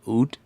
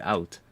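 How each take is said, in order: First: It is said with non-Dutch pronunciation, like 'ood'. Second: It is said with Dutch pronunciation, like 'out'. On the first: It names the stringed instrument. "I've always been pronouncing it more as like oud" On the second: It is the Dutch word for old. "O U D in Dutch would be out"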